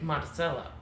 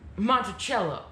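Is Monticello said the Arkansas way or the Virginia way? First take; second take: Arkansas; Virginia. First: The name is said the Arkansas way. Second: The name is said the usual Virginia way.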